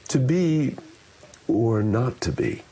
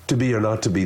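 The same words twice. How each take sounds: First: It is spoken with varied pitch, pace and shaping. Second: It is spoken flatly, with little vocal variety. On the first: The listener can follow the meaning easily. The speaker calls it right. "I'm also taking the time to shape the sound, to shape the musicality" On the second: The listener struggles to follow the meaning. The speaker calls it wrong. "I'm not doing any of the work to make it easier for the listener"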